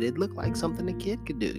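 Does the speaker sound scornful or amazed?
amazed. It is said with an amazed, wondering tone.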